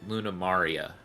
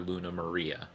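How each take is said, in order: First: The name is said with Japanese-style vowels. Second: The name is said with English spelling-based vowels. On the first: This is how the earlier cast said it. The speaker calls it right. "even the original cast said Luna Maria" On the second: This is how the new cast says it. The speaker calls it wrong. "they didn't call her Luna Maria"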